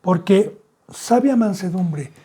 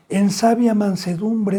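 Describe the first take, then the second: First: "sabia mansedumbre" slowed again, falling on sabia; slow emphasis. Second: Sabia mansedumbre drawn out, falling on sabia; slow emphasis. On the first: Preacher repeats the phrase for the church, slow. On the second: Preacher dwells on the key phrase, slow and weighty. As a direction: stretch out "sabia mansedumbre" slowly. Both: Shown as a demonstration. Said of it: "Esto es muy importante".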